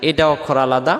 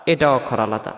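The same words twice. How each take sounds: The two takes are said the same way.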